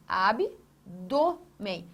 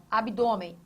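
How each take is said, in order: First: "abdômen" broken slowly into ab, dô, men; syllable by syllable. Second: Said in the usual way. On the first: Shown as a demonstration. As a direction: split "abdômen" into drawn-out syllables with pauses. ("abdômen" separado devagar, sílaba por sílaba) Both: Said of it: "Tonicidade. Está aqui".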